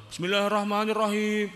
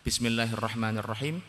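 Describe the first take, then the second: First: High, raised chanting prayer voice; loud, blaring recitation. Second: Sung, even-toned Quranic recitation, lifted at the end; sung, recite it evenly, holding the last syllable; sung, measured recitation. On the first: Teacher mocking needlessly loud prayer recitation, high and blaring. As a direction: belt it out high as one held line. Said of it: "ora perlu kowe sholat mbek gembor-gembor". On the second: Sung, teacher demonstrating Fatihah for students, measured recitation. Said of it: "Tasdidat teng Fatihah yang empat belas". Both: Shown as a demonstration.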